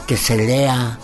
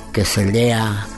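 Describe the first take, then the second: No difference in how they are said.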